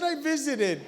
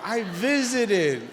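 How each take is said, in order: First: Said in the usual way. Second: "I visited" drawn out slowly in a southern drawl. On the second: Shown as a demonstration. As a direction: stretch "visited" like an Arkansas drawl. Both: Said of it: "I do it with a little southern drawl".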